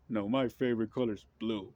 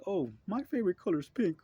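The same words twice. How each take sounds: First: Lightly voiced stubborn counterpart; mock rival partisan. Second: High, sing-song mock voice of one side; mock partisan. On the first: Mocking the other political side, lightly put-on. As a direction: answer back with a mild huff. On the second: Mocking one political side with a high, airy voice. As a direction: toss off a silly preference. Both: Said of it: "is like saying".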